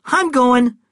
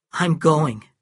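First: Loud retort. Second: Happily. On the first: Acted. Cal answers the shout. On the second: A narrator's reading. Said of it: "he said happily".

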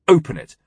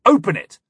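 First: Curt, loud order to open; firm demand. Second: High, loud furious command; shouted demand. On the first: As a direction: insist firmly, voice raised. Demanding the locked door opened. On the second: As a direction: yell the order at her. Repeats demand, now yelling. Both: Acted.

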